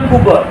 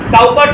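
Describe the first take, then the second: First: The first vowel sounds like 'coo'. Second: The first vowel sounds like 'cow'. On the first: The speaker calls it right. "উচ্চারণটা হচ্ছে William কুপার" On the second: The speaker calls it wrong. "কাউপার টাউপার নয়"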